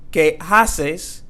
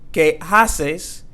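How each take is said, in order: First: An h sound is heard before the a. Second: The same.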